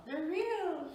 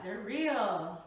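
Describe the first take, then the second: First: Squeaky high repeat of the words; excited. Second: Said in the usual way. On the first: Shown as a demonstration. Showing off fresh strawberries, high and excited. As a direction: pitch it way up in delight.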